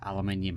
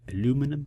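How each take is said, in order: First: It is said the British way, with five syllables. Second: It is said the American way, with four syllables.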